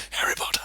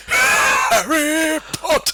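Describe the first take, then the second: First: Quick, soft aside; quick whisper. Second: High, slow dramatic shout; shouted name. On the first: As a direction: toss it off under the breath. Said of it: "quickly goes". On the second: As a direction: belt the name out. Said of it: "be able to go". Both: Retold or imitated.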